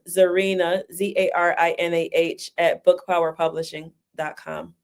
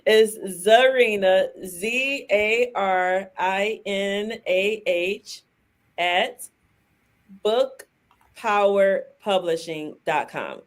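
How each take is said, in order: First: It is said fast. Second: It is said slowly.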